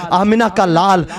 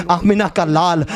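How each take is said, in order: Both takes have the same delivery.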